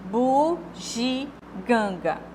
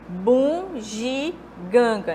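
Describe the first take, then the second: First: Only the syllable gan is nasalized. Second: The first syllable bu is nasalized. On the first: The speaker calls it right. "Mas como é o correto?" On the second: The speaker calls it wrong. "tá havendo uma nasalização aqui do U"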